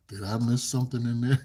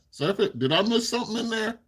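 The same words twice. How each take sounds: First: Said in the usual way. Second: High-pitched incredulous question; baffled surprise. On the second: Real, not acted. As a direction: pitch it way up, puzzled. Baffled by viewer's mafia remark.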